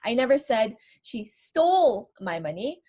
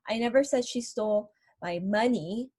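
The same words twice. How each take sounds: First: The word stole is stressed. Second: The word money is stressed. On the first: She may have borrowed it rather than stolen it. "maybe I'm implying that she borrowed my money" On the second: She may have taken something other than money. "what I'm stressing is that she stole something else from me"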